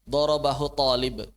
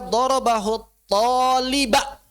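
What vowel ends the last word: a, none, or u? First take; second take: none; a. First: The last word ends with no final vowel. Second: The last word ends with a short a. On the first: It is unclear who hit whom. "Coba kalau pakai sukun" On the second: He hit the student. "maka berarti dia memukul talib"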